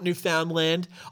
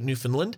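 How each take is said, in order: First: It is pronounced the way outsiders say it. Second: It is pronounced the way locals say it. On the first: The speaker calls it wrong. "It's not Newfoundland" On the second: The speaker calls it right. "for our Canadian listeners, I just want you to appreciate how I pronounce Newfoundland"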